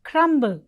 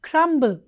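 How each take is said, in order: Both takes have the same delivery.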